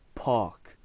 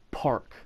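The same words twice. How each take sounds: First: The R after the vowel is dropped. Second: The R after the vowel is pronounced. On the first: "With non-rhotic, you would say" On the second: "In rhotic language, you would say"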